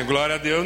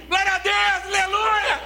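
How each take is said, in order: First: Low, grudging glória a Deus; reluctant praise. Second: High shouted glory hallelujah; crowd's eager cheer. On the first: Imitating crowd's grudging praise at the costly promise. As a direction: mumble the praise, half-hearted. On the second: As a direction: explode with joy at the promise. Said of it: "Fala assim". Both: Retold or imitated.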